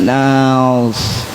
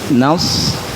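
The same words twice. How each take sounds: First: The word is said very slowly and drawn out. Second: The word is said at normal speed.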